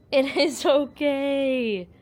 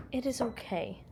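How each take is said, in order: First: Very slow, drawn-out soothing; emphatic reassurance. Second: Quiet, gentle soothing; softly calm a frightened pet; soft reassurance. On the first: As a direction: stretch each word to convince a scared pet. Soothing pet, drawn-out emphatic take. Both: Real, not acted.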